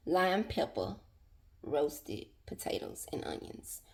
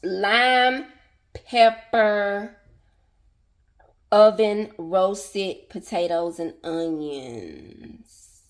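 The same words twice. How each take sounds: First: Whisper. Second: Said in the usual way. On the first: Acted. Repeats dish name under breath.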